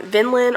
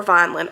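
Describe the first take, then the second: First: "Vinland" with a short i, as in "win"; unsure pronunciation. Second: "Vineland" with a long i, as in "vine"; alternative pronunciation. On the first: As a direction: say the first syllable of "Vinland" like "vin". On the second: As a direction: say the first syllable of "Vineland" like "vine". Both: Shown as a demonstration. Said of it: "which way you pronounce it".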